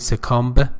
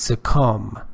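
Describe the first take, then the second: First: A b sound is pronounced at the end. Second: No b sound is pronounced at the end. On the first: The speaker calls it wrong. "Don't say succumb" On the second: The speaker calls it right. "B or B is not pronounced"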